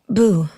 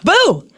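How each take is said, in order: First: It is said in a plain natural voice. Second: It is said in a put-on character voice. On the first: "say boo like you're you're in your own voice" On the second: "And now say it in your character's voice"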